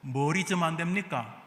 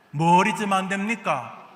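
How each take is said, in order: First: Said in the usual way. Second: Louder question, punching "뭘"; forceful "뭘" at the start, falling at the end; emphatic repeat. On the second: Real, not acted. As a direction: press the congregation, hitting "뭘" hard.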